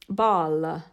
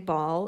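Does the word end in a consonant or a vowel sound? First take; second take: vowel; consonant. First: An extra vowel is added after the final consonant. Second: The word ends cleanly on the final consonant. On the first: "It's the typical Italian accent" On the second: "we would say ball in English"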